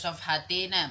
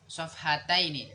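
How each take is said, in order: First: The ending is pronounced '-tina' without the diphthong. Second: The ending is pronounced '-taini' with the diphthong. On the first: The speaker calls it wrong. "jangan dibaca sofhatina" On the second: The speaker calls it right. "Sofhataini, musanna"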